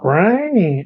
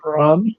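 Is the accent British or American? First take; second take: American; British. First: It is said in an imitated American accent. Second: It is said in a posh British accent.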